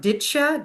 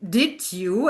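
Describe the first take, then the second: First: The words merge into two blended syllables. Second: Both words are said fully and separately.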